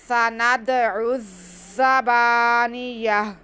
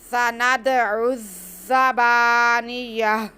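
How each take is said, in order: First: The word stops, ending in a soft h sound. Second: The word stops, ending in a soft h sound.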